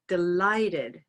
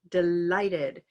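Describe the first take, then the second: First: The middle consonant is a clear L. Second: The same.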